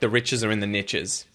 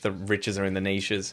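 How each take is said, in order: First: "Niches" is said to rhyme with "riches". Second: "Niches" is said so it does not rhyme. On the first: This is how the original saying goes. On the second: This is how it sounds in Australian English.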